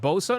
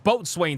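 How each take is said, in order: First: It is said as two short syllables, bo-sun. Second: It is said in full as boat-swain. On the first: The speaker calls it wrong. "You pronounce this as Bosun?" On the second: The speaker calls it right. "This shit is Boatswain to me"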